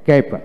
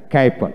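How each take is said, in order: Both takes have the same delivery.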